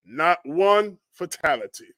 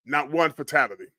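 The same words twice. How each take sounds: First: NOT ONE FATALITY drawn out slowly, word by word; slow emphasis. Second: Said in the usual way. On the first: Real, not acted. Marvelling that nobody died, slow emphasis on "Not one fatality". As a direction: linger on "one" and "fatality" in wonder.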